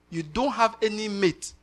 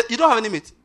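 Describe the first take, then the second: First: Slow it down, weigh "have"; "You don't have any mate" slow, with "have" stressed and no push. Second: "don't" hit higher and louder; "You don't have any mate" with "don't" punched high and loud; stress on don't. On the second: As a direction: drive "don't" home, pitched up. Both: Acted. Repeated emphatic sermon line.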